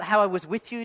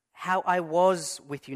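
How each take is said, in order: First: "how I was with you" with "how" punched and a questioning rise; wrong emphasis. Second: Slow, weight on "was", falling; "how I was with you" spoken slowly, leaning on "was"; right emphasis. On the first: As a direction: stress on "how", rising, higher and louder. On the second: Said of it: "you can get things wrong if you give the wrong emphasis". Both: Shown as a demonstration.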